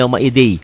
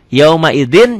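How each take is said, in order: First: The phrase ends without the n sound. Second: The phrase ends with an n sound. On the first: This is how it is recited. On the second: This is how it is written.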